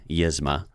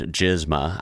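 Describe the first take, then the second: First: The name begins with a Y sound. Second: The name begins with a hard G sound. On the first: The speaker calls it right. "It's probably Yizma" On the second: The speaker calls it wrong. "I don't think it's probably supposed to be pronounced like that"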